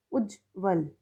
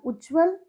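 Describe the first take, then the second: First: उज्ज्वल broken as "ujj, val", lower; split-syllable reading. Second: Said in the usual way. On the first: Shown as a demonstration. Teacher contrasts two columns, उज्ज्वल split in two and lower. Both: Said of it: "सही और गलत".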